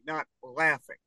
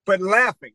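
First: LAUGHING with the L made at the back of the tongue; dark, swallowed L starting "laughing". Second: Said in the usual way. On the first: Shown as a demonstration. Co-host mimics Brian's L for a puzzled partner, back-of-tongue L. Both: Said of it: "back of your tongue".

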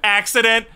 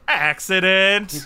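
First: Said in the usual way. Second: Slow, falling, knowing "Accident."; ominous repeat. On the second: Acted. Mocking the barn accident story, slow knowing repeat. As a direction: drag out "Accident." slowly with a suspicious drop.

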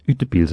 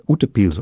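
First: UTEPILS with the first vowel varied, tentatively; alternative pronunciation attempt. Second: UTEPILS as a tentative first try at the Norwegian vowel; first pronunciation attempt. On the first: Guest unsure of a Norwegian word, alternative pronunciation of UTEPILS. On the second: Guest unsure of a Norwegian word, first pronunciation attempt of UTEPILS. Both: Shown as a demonstration. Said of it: "not quite sure how to pronounce it".

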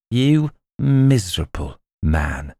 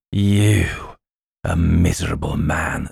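First: Slow, scornful goblin sneer; milder first sneer, drawn out; contemptuous. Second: Scornful goblin king sneer; withering put-down. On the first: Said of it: "in a tone of excessive contempt". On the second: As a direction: lay the contempt on thick. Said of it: "in a more contemptuous tone than before". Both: Acted.

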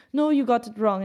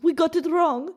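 First: Lightly imitated Russian accent at speaking pitch; slight Russian accent. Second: Put-on higher-pitched echo of a slight Russian accent; copied Russian accent. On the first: Foreign minister correcting his American counterpart, in a tiny Russian accent. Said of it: "he has a tiny accent". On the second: American diplomat repeating the minister's words, in his slight Russian accent. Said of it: "in his accent".

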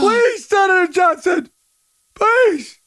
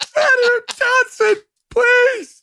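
First: Crying mock plea. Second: Mock whining plea. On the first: Host mimicking the anchor begging, crying with laughter. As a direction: beg through tears of laughter. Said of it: "I'm crying". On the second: Host mimicking the anchor begging the senator, shrill mock whine. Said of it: "I'm waiting for him to go".

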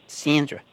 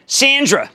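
First: Said in the usual way. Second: Greets Sandra in a brief put-on accent; mock accent. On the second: Host greeting caller Sandra, in a mock accent. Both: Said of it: "sorry about the accent".

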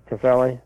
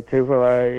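First: Tufele said as tuh-FELL-ee; alternative pronunciation. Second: Tufele said as TOO-vuh-luh; first pronunciation attempt. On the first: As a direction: stress Tufele on the middle syllable, ending in "ee". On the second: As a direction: stress Tufele on the first syllable, ending in "luh". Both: Shown as a demonstration. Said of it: "How do you pronounce that?".

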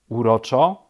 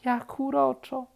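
First: Loud, rising disbelieving question; incredulous echo. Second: Charmed. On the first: Rabbit disputes bear's praise, loud and incredulous. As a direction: throw the word back in disbelief. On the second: Bear admires happy woodpecker, cooing high. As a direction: coo it, enchanted. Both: A narrator's reading.

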